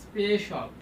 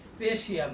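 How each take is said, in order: First: The ending is said as one syllable, 'shal'. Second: The ending is said as two syllables, 'shi-al'. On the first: The speaker calls it right. "আমাদের উচ্চারণটা হবে এখানে স্পেশাল" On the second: The speaker calls it wrong. "স্পেশিয়াল না"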